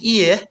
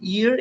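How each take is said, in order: First: The final r sound is dropped. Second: The final r sound is pronounced. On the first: "in British, you can say Ear. Okay, so we never uh, was that uh, say R sound in British accent" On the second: "In American, you can say"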